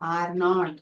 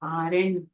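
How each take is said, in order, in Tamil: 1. இது இரண்டு முழுமையான, தனித்தனி வார்த்தைகளாகச் சொல்லப்படுகிறது. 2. இது ஒரு சுருக்கப்பட்ட வார்த்தையாகச் சொல்லப்படுகிறது. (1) "இரண்டு தனி வார்த்தைகள்" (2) "சுருக்கப்பட்ட வார்த்தை"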